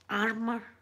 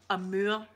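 First: It is pronounced like the English word armor. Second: It is pronounced like the French word amour. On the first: The speaker calls it wrong. "not armor" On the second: The speaker calls it right. "Amour, Linda, get it right"

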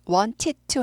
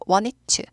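First: Each syllable of wanted to is fully pronounced. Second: The words are reduced and run together quickly. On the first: The speaker calls it wrong. "빨리 하면 wanted to 하지 않고" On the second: The speaker calls it right. "want it to, I want it to 이렇게 돼요"

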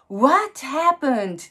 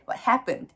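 First: The stress falls on the word what. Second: The stress falls on the word happened. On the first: The speaker calls it wrong. "ではなくて" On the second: The speaker calls it right. "What のところにはストレスが乗らない。"

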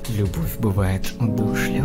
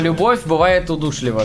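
First: It is said in a put-on sexy voice. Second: It is said in an ordinary speaking voice.

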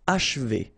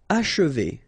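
First: The middle vowel is barely heard. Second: The middle vowel is clearly pronounced.

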